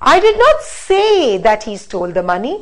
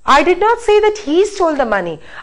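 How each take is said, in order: First: The stress falls on the word say. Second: The stress falls on the word he. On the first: Maybe it was written down instead. "Now let's stress on say" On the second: Somebody else did the stealing. "I said that somebody else stole, not he"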